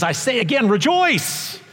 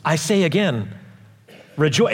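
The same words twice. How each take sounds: First: "rejoice" rising much higher, proclaimed; the preacher insisting "rejoice" with rising force; emphatic repeat. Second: Said in the usual way. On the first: Shown as a demonstration. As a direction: lift "rejoice" high like a shout of joy. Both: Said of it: "It must be a big deal if he says".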